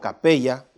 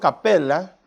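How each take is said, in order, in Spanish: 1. El nombre se pronuncia al modo español. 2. El nombre se pronuncia al modo latino. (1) "de forma española"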